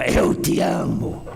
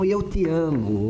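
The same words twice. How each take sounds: First: It is said with hatred. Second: It is said lovingly.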